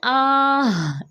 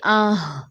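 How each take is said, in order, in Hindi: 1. आवाज़ धीरे-धीरे खींची जाती है। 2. आवाज़ जल्दी से छोटी काटी जाती है। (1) "बच्चे क्या करते आह, ऐसे नहीं पढ़ सकते हम" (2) "फौरन से"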